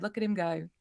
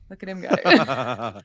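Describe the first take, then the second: First: Said in the usual way. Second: Much lower and slower, playful; deep slow voice. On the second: Pretend. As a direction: drop low and slow it way down. Repeats the line in a put-on voice.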